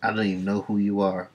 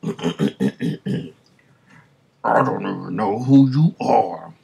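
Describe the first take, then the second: First: It is said in his normal voice. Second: It is said in a put-on character voice.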